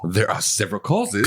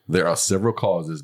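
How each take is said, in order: First: It is read in a lively, playful voice. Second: It is read in a flat, dull voice. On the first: The speaker calls it right. "That was much more fun" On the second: The speaker calls it wrong. "There was no fun in your voice"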